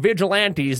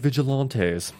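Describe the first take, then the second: First: The word is said in a rural, folksy accent. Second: The word is said in a posh, refined accent. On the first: The speaker comes from a rough rural place. "Sounds really redneck" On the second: The speaker comes from a civilized, cultured place. "we're more civilized up here with our vigilantes"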